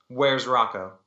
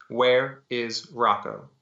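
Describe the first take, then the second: First: Firm, mildly insistent question; demanding. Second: Slow, deliberate demand, word by word; slow repeat. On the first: Gunwoman questioning pinned Frank, firm demand. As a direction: demand an answer, restrained. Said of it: "I demanded". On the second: Gunwoman repeating herself to stunned Frank, slow deliberate demand. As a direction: space out each word firmly. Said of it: "I repeated myself more slowly". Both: A narrator's reading.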